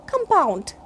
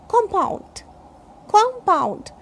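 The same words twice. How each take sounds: First: "compound" with a weak UH in the first syllable; verb compound. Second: "compound" with a full O in the first syllable; noun compound. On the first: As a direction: say "compound" as kum-POUND. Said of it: "K A M". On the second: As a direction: say "compound" as KOM-pound. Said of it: "this is noun or adjective". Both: Shown as a demonstration.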